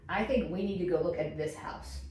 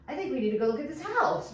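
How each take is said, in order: First: The pitch falls at the end. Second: The pitch rises at the end. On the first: The speaker sounds confident in the statement. The speaker calls it right. "a downswing" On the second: The speaker sounds unsure or as if asking a question. The speaker calls it wrong. "sounds like you're lacking confidence or you're asking a question"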